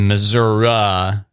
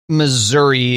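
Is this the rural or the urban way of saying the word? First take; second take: rural; urban. First: It is said the rural, countryside way. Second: It is said the urban, city way. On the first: Country people usually say it this way. "a more rural pronunciation" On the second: City people usually say it this way. "more common in the metropolitan areas"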